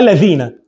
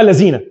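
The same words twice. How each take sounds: First: The word begins with a voiced th sound. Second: The word begins with a z sound. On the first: The speaker calls it right. "اسمها الذين" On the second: The speaker calls it wrong. "مش اسمها الذين"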